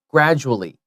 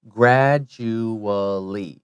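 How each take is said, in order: First: It is said quickly with the middle syllables merged. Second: It is said slowly with every syllable clear. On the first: "when we say it quickly ... you don't have to say the you" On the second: "if you say it slowly, it's just like it's spelled"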